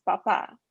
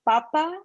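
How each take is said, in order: First: Papa stressed on the last syllable; final-syllable stress. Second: Papa stressed on the first syllable. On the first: Tutor contrasting potato and father, papa stressed last. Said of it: "the other one saying father". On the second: Tutor contrasting potato and father, papa stressed first. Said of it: "saying a potato". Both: Shown as a demonstration.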